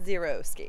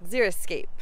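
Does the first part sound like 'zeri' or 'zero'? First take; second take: zero; zeri. First: The first part sounds like 'zero'. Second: The first part sounds like 'zeri'. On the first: The speaker calls it wrong. "not xeriscape" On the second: The speaker calls it right. "that zero is X E R I, xeriscape"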